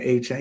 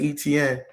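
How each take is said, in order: First: The name sounds like 'A-chain', two syllables. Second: The name sounds like 'Eh-tee-en', three syllables. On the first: This is how people from his home region say it. "We pronounce his name A Chain" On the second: This is the habitual outside way of saying it. "I'm so used to saying E T N"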